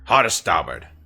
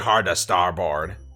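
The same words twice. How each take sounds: First: The last syllable is reduced, like bird. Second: The last syllable is said fully, like board. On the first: "The general way people say it, like, fluently, phonetically, is starboard" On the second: "You could say hard to starboard. Which is not incorrect"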